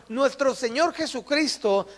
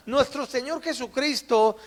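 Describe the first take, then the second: No difference in how they are said.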